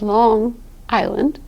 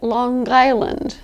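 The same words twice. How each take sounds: First: Long ends in a nasal with no G sound. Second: Long ends with an audible hard G sound.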